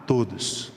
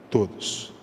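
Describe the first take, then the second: First: Said in the usual way. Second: Preacher whispering todos to drive it home; whispered repeat. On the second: Shown as a demonstration. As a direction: whisper todos again, breathless and hushed.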